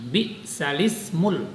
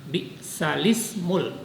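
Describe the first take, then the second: The two takes are said the same way.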